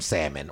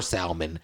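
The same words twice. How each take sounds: First: Said in the usual way. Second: "salmon" with the L sounded; pronounced L. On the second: Shown as a demonstration. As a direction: say "salmon" as SAL-mun, L audible. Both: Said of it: "depending on how you say it".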